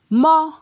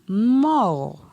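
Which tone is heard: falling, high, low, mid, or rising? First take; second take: high; falling. First: It is said on a high tone. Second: It is said on a falling tone. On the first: "Ton haut" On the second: "Ton descendant"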